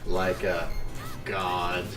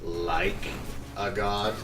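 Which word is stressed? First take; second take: a; like. First: The word 'a' carries the stress. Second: The word 'like' carries the stress.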